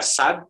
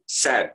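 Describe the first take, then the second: First: Sad with an open "ah", like "sahd"; "sad" as "sahd", no E colouring; wrong plain A. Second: Sad as "saed", between A and E; "sad" with the vowel of "have"; blended AE. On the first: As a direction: say "sad" with a pure Indonesian A. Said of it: "Tidak sad". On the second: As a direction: say "sad" with A tilted toward E. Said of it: "Jadi ada A E-nya". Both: Shown as a demonstration.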